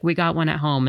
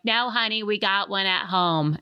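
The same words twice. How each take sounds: First: Said in the usual way. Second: Put-on Gertrude New York accent. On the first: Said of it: "memes where it's like".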